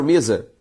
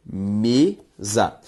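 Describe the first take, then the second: First: Said in the usual way. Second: "mesa" split into me, za; syllable by syllable. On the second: Shown as a demonstration. Teacher separating a word for students, "mesa" syllable by syllable. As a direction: sound out "mesa" as two slow, separate syllables. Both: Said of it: "Se eu separo mesa".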